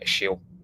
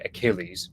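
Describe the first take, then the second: First: The name is said with French pronunciation. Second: The name is said with English pronunciation. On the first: "the French say Achille" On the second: "we would say Achilles"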